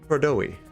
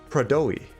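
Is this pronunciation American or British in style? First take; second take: British; British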